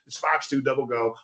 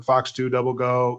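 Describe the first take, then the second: First: It is said with lively, excited energy. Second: It is said flatly with low energy. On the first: The speaker is engaged and motivated. The speaker calls it right. "so you're excited" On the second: The speaker is only going through the motions. The speaker calls it wrong. "you're just talking through the play"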